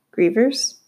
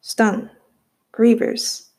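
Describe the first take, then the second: First: "Grievers?" asked with a puzzled upward lift; a boy repeats "Grievers?" he has never heard; confused question. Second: A touch of dread on "Grievers.". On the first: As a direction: echo "Grievers?" back, baffled and rising. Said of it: "only getting more and more confused". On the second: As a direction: let "Grievers." sink with a hint of fear. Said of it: "The words had a heavy weight of dread". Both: A narrator's reading.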